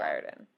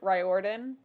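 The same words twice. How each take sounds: First: The O in the middle is left silent. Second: The O in the middle is clearly sounded. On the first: The speaker calls it right. "but it's" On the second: The speaker calls it wrong. "I used to pronounce it"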